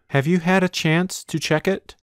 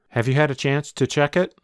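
First: The words are said slowly and carefully. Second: The words are said quickly and run together.

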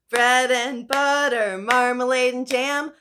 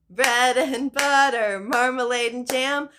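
Both takes have the same delivery.

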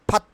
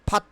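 Both takes have the same delivery.

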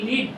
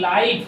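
First: The vowel is a short i sound. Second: The vowel is an ai diphthong. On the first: It means to reside somewhere. "এলআইভি লিভ বলছে" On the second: It means happening in real time. "এলআইভি লাইভ বলছে"

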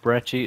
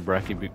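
First: The middle consonant is a 'ch' sound. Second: The middle consonant is a 'k' sound. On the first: The speaker calls it right. "I think Brecci is the correct pronunciation" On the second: The speaker calls it wrong. "But I just say Brecky"

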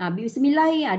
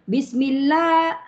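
First: The 'lla' sound is clipped short. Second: The 'lla' sound is held for two counts. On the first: The speaker calls it wrong. "Dia tak boleh pendek" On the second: The speaker calls it right.

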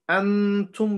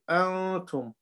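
First: The n is pronounced clearly with the tongue. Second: The n is hidden and sounded through the nose. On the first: The speaker calls it wrong. "instead of pronouncing it from our tongue" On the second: The speaker calls it right. "We take the sound to the nose"

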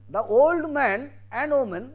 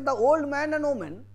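First: The words group as 'the old man' then 'and woman'. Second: The words group as 'the old' then 'man and woman'. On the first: Only the man is old. "then I say the man is old, but woman is not" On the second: Both the man and the woman are old. "then man and woman both are old"

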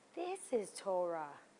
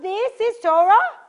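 First: It sounds calm and accepting, like a realization. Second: It sounds incredulous and outraged, like a protest.

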